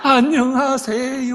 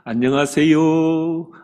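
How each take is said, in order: First: The greeting is said at a high, bright pitch. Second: The greeting is said at a low, dull pitch. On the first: The greeting sounds glad and welcoming. The speaker calls it right. "최소한 솔 이상" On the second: The greeting sounds unenthusiastic. The speaker calls it wrong. "이렇게 하면 안 됩니다"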